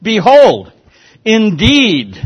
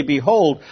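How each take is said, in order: First: "Behold" and "indeed" punched high and loud, each falling; emphatic behold. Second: Said in the usual way. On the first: Shown as a demonstration. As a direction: hit "Behold" and "indeed" hard, like a proclamation. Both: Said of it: "Look at the emphasis".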